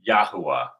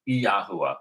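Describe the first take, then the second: First: Said in the usual way. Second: Yahuwah begun with an added "ee", ee-yah-HOO-ah; proper pronunciation. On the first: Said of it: "not just Yahuwah". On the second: Shown as a demonstration. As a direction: put an ee before Yahuwah. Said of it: "properly pronounced Yahuwah".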